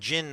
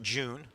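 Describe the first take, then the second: First: The vowel is a short 'i' sound. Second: The vowel is a long 'oo' sound. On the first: The speaker calls it right. "it's more like Jin" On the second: The speaker calls it wrong. "not June"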